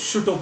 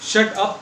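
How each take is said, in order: First: The vowel in 'shut' sounds like 'put'. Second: The vowel in 'shut' sounds like 'cut'.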